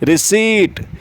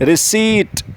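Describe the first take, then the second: The two takes are said the same way.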